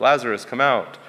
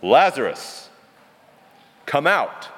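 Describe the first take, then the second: First: A modest lift in volume, calling a name; slightly louder. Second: Big booming call, come out pitched higher; booming shout. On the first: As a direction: call Lazarus out, only a little louder. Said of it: "like, slightly louder". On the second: Preacher acting Jesus shouting into Lazarus' grave, booming. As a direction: boom it across the tomb to wake the dead. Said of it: "This was a shout". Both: Shown as a demonstration.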